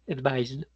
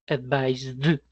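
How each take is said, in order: First: The final d sound is light and subtle. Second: The final d sound is strongly exaggerated. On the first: "es mucho más sutil" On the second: "lo estoy exagerando"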